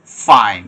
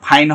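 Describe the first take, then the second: First: "ফাইন" with a drawn-out English f, teeth on lip; slow "ফাইন", hissing f through teeth and lip; correct f. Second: "ফাইন" as "phain" with both lips; wrong f. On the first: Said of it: "ফাইন এরকম হবে". ("ফাইন" দাঁত-ঠোঁটের f দিয়ে, টেনে) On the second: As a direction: puff "ফাইন" with an aspirated p. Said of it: "ফাইন হবে না". ("ফাইন" দুই ঠোঁটের ফ দিয়ে) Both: Shown as a demonstration.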